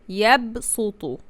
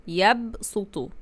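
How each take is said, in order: No difference in how they are said.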